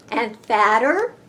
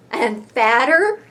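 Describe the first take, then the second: No difference in how they are said.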